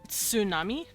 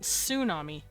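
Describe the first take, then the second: First: It begins with a ts sound. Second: It begins with a plain s sound. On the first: The speaker calls it right. "this is where we get the term tsunami" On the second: The speaker calls it wrong. "not tsunami"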